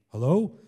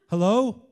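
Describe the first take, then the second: First: It is said in a deeper, older man's voice. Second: It is said in an ordinary, unaltered voice.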